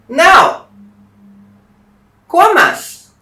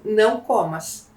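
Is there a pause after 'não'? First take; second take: yes; no. First: It is said with a pause after não. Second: It is said without a pause after não.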